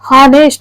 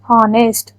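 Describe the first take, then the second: First: The word begins with an audible H sound. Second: The word begins directly with a vowel sound. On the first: The speaker calls it wrong. "ಹಾನೆಸ್ಟ್ ಅನ್ನಲ್ಲ" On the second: The speaker calls it right. "ಹೆಚ್ಚು silent ಆಗುತ್ತಲ್ಲಿ"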